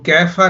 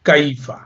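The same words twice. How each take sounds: First: The first vowel is an 'air' sound. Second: The first vowel is not an 'air' sound. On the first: The speaker calls it wrong. "कैफ़ा नहीं है" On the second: The speaker calls it right. "बल्कि कैफ़ा"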